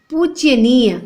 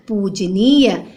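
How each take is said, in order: First: "पूज्यनीय" as pooj-ya-neey; extra y after j in "पूज्यनीय"; wrong pronunciation. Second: "पूजनीय" as pooj-neey; no y after j in "पूजनीय"; correct pronunciation. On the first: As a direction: say "पूज्यनीय" with a ya in the middle. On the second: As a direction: lower "पूजनीय", j straight before neey. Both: Shown as a demonstration. Wrong then right spelling, read aloud.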